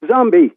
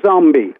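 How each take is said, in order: First: Zombie with a Limerick accent, pitch raised. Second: Said in the usual way. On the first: Shown as a demonstration. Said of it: "people in Limerick would say". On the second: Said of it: "she sings it like".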